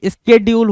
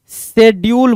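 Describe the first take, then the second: First: स्केड्यूल said as "skedyool", hard sk start; the correct way: स्केड्यूल with sk; right schedule. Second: The wrong way: शेड्यूल with an sh sound; wrong schedule. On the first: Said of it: "स्केड्यूल होता है". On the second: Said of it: "शेड्यूल नहीं होता भाई". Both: Shown as a demonstration.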